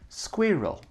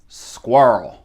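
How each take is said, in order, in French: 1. Il est prononcé avec un accent britannique. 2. Il est prononcé avec un accent du sud des États-Unis. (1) "Tan France dit squirrel, squirrel, squirrel. Très anglais" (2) "si c'est l'accent du sud des États-Unis"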